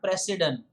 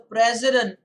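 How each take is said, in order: First: The middle consonant is a hissing S sound. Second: The middle consonant is a buzzing Z sound. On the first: The speaker calls it wrong. "not president" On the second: The speaker calls it right. "It's always the president of India"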